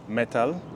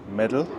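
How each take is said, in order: First: It is said in a non-American accent. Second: It is said in an American accent.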